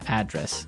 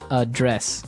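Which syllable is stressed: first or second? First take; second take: first; second. First: The stress is on the first syllable. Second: The stress is on the second syllable. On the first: It is the noun meaning where you live. "And there the stress is on the first syllable" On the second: It is the verb meaning to deal with a problem. "the verb address has the stre- the stress on the second syllable"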